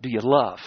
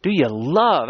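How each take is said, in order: First: "love" pressed low and soft; quiet stress on love. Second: "love" leaned on and falling; stress on love. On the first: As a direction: drop low and ask "Do you love?" gently. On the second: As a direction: press "Do you love?" on "love". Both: Shown as a demonstration. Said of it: "I'm trying to emphasize that word".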